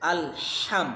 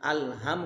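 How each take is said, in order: First: আলহাম with a breathy h from mid-throat. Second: আলহাম said with a plain h, the wrong way; a light, plain h in আলহাম, as a mistake; wrong pronunciation shown; wrong h sound. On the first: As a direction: push the h in আলহাম out like breath on a cold day. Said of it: "এটা গলার মাঝখান থেকে আসবে". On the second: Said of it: "না". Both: Shown as a demonstration.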